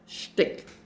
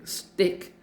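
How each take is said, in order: First: The word is said in a Yiddish way. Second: The word is said in a plain English way. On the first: The speaker calls it right. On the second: The speaker calls it wrong.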